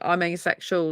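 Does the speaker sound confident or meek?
confident. It is said confidently, like an everyday fact. The speaker is proud and unashamed of it. The speaker calls it right. "really confident, like it's just normal everyday thing"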